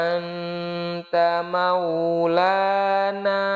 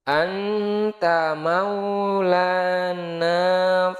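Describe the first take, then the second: Both takes have the same delivery.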